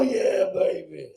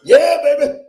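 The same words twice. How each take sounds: First: Put-on slow, stretched yeah baby; drawn-out catchphrase. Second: Put-on loud, high, laughing yeah baby; hammed-up catchphrase. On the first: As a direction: savour each word like a cheesy lover. Catchphrase after shout. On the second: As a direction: belt it out like a cheesy showman. Comedian's catchphrase opener.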